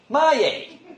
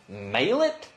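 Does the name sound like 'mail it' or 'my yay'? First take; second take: my yay; mail it. First: The name sounds like 'my yay'. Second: The name sounds like 'mail it'. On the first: The speaker calls it right. "M-Y, my. ... Y-A-Y, my, yay" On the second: The speaker calls it wrong. "it's so easy to say, mail it?"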